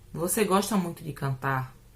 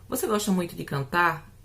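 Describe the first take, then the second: First: It is said with a statement intonation. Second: It is said with a questioning intonation. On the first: The speaker is asserting a fact. "É uma afirmação" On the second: The speaker is asking. "É uma pergunta"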